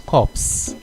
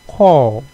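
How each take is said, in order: First: The final P and S sounds are pronounced. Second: The final P and S sounds are silent. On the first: The speaker calls it wrong. "people normally confuse that word as corpse" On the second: The speaker calls it right. "You pronounce it as if it's spelled C O R E"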